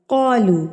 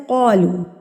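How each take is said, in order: First: The first consonant sounds heavy with rounded lips. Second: The same.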